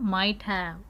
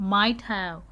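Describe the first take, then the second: Both takes have the same delivery.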